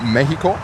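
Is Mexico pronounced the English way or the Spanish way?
Spanish. Mexico is said with a Spanish pronunciation.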